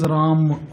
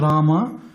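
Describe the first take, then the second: First: The name ends on the m sound. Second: The name ends with a full final vowel. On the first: "another style is Ram" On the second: "So there is Rama"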